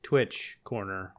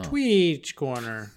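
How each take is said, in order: First: "Twitch corner" with a short i, said slowly; "Twitch" as in the streaming site, drawn out. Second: "Tweech" with a long ee and a ch ending, slow and stretched; "Tweech corner", mock pronunciation, drawn out. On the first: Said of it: "Tweech, Tweech corner?". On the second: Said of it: "I don't like it". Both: Shown as a demonstration.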